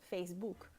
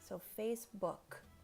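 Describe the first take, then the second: First: The final k sound is dropped. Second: The final k sound is clearly pronounced. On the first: The speaker calls it wrong. "you're not pronouncing the k at the end of the word" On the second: The speaker calls it right. "you enunciate the, the K at the end"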